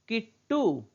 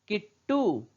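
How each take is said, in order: No difference in how they are said.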